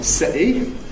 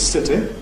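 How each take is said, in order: First: Said in a fairly broad Cockney accent. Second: Said in RP with a plain t. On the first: "we have a fairly broad Cockney city" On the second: "R P is city"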